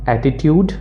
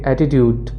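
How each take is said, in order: First: It is said in an Indian English accent. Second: It is said in an American English accent. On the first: "Indian accent में" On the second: "American accent में इसको कहेंगे"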